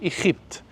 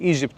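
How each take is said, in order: First: The word is said with a rasping kh sound. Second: The word is said with a hard g sound. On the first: "اي حاجه فيها جي تبقى خي" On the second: "اقول لهم من ايجيبت"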